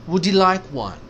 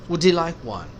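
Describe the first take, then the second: Both takes have the same delivery.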